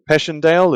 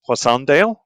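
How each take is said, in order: First: The name is said the common English way. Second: The name is said with a French pronunciation. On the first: "as most people pronounce it" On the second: "I think in French it's"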